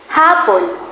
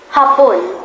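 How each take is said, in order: First: The stress is on the last syllable. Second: The stress is on the first syllable. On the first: It means afternoon. "Pag naman ang diin ay nasa huling pantig, nangangahulugan nitong oras" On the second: It means Japan. "Kapag ang diin ay nasa unang pantig, nangangahulugan itong Japan"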